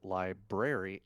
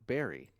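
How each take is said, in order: First: Both r sounds are pronounced, 'li-brar-y'. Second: The first r is dropped, 'li-ber-ry'. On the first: The speaker calls it right. "I said library" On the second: The speaker calls it wrong. "and not berry"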